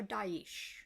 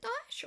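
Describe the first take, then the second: First: "Daesh" split in two, ending in eesh; Daesh in two syllables. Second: "Daesh" run together to rhyme with posh; Daesh as one syllable. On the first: Unsure speaker asks listener which is right, "Daesh" said DAH-eesh. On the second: Unsure speaker asks listener which is right, "Daesh" said DAHSH. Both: Shown as a demonstration. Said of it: "is it Daesh or Daesh?".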